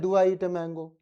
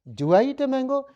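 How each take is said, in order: First: It sounds eerie, like a haunting ghost. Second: It sounds like a genuine questioning tone. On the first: The speaker calls it wrong. "ये तो लग रहा है कोई हवेली वाला भूत प्रेत है।" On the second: The speaker calls it right. "लगना चाहिए कुछ पूछ रहा है ये बार बार।"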